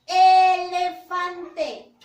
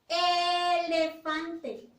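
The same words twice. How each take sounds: First: Elefante stretched very slowly and said much louder; very slow, loud model of elefante; slow loud model word. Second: Elefante sung slowly, syllable by syllable; sung, slow sing-song Elefante; sung model word. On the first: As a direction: belt out elefante syllable by syllable. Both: Shown as a demonstration. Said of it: "¿Inicia o no inicia con la vocal E?".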